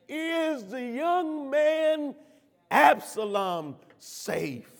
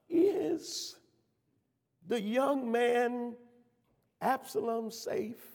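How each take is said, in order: First: The question is asked with more intensity. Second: The question is asked gently and tenderly. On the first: "again with more intensity, but lovingly and caringly" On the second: "I can hear the tenderness and concern and love in his tone"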